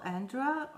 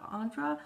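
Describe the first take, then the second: First: "Andra" with a short a as in "and"; front-vowel Andra. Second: "Andra" with a broad ah, pitched higher; open-vowel Andra. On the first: Vlogger addressing a lost subscriber, "Andra" with flat-a as in "and". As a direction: say "Andra" starting like "and". First of two name pronunciations. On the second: Vlogger correcting the subscriber's name, "Andra" as "AHN-dra". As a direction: say "Andra" starting like "on". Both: Real, not acted.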